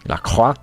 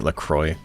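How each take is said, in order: First: The R is rolled, in a French way. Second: The R is not rolled, in an American way. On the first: The speaker calls it right. "You gotta say it like that. You gotta roll the R" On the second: The speaker calls it wrong. "Can't say it"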